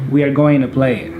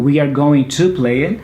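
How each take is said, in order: First: "Going to" is run together as gonna. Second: "Going to" is said as two full words. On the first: "I'm saying" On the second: "Instead of saying"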